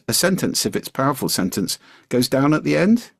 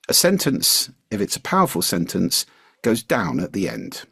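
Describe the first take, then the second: First: The voice rises at the end of the sentence. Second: The voice falls at the end of the sentence. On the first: The speaker seems to be asking for approval. The speaker calls it wrong. "Nope, doesn't work" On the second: The speaker sounds confident and assertive. The speaker calls it right. "if it's a powerful sentence, goes down at the end"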